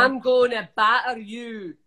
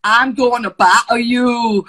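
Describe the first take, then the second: First: 1 Scottish accent. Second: A hammed-up Scottish accent, loud and slow, laughing; a wobbly, laughing try at a Scottish accent; bad Scottish accent. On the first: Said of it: "give me a Scottish thing to say". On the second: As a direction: attempt Scottish accent, cracking up. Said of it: "Don't wanna do a Scottish accent". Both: Shown as a demonstration.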